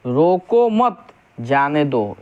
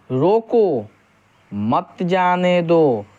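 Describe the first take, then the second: First: "रोको मत" joined, break, then "जाने दो"; slow "रोको मत", pause, falling "जाने दो"; pause after मत. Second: "रोको", clear break, then "मत जाने दो" as one slow phrase; drawn-out "रोको", pause, stretched "मत जाने दो"; pause after रोको. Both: Shown as a demonstration. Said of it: "जो अल्प विराम चिन्ह है".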